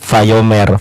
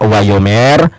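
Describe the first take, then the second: First: The word begins with a V sound. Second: The word begins with a W sound. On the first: This is the modern reading. "kalau yang modernit Vayomer" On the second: This is the classical reading. "Yang pertama Wayomer"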